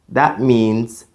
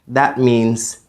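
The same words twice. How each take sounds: Both takes have the same delivery.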